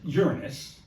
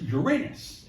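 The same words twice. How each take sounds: First: It sounds like the word 'urine' plus 'us'. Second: It sounds like the words 'your anus'. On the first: It makes the planet's name sound crude. "just a piss poor name for a planet" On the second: It invites jokes about the planet's name. "you get all the jokes about the rings around Uranus"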